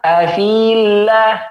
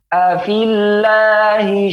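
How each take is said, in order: First: The vowel before the double L is long. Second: The vowel before the double L is short. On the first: The speaker calls it wrong. "Yang salah afillah, dipanjangkan" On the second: The speaker calls it right. "Yang benar"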